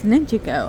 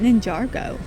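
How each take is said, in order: First: No R sound follows the 'ninja' part. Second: An R sound follows the 'ninja' part. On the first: The speaker calls it right. "I've been saying it wrong all these years" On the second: The speaker calls it wrong. "I always called it Ninjago"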